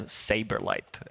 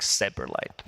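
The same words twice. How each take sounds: First: Said in the usual way. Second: "Saberlight" said low and slow with Seb as its first syllable; punning name blend. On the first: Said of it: "Maybe we can call it that way". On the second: Shown as a demonstration. Panelist coining a nickname, "Saberlight" pronounced Seb-erlight. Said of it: "what I call them is".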